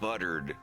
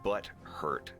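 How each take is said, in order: First: The word is blended, sounding like 'buttered'. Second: The word is split, with 'hurt' clearly separate. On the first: "Not buttered"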